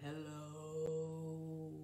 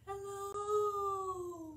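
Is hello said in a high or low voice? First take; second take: low; high. First: Hello is said in a low voice. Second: Hello is said in a high voice.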